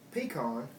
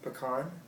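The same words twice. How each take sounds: First: Said in a general Southern accent. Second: Said in a non-Southern accent. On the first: "with the general Southern accent" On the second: "how I say them"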